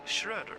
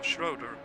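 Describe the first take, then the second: First: The name is pronounced the non-American way. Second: The name is pronounced the American way.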